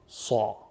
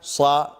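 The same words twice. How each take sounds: First: The consonant is heavy, with emphatic quality. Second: The consonant is light, without emphatic quality. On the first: The speaker calls it right. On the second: The speaker calls it wrong.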